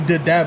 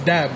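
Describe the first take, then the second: First: The first D is pronounced aloud. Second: The first D is left silent. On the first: The speaker calls it wrong. "a lot of people still tell me did dab" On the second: The speaker calls it right. "no, it's dab. Leave the first D alone"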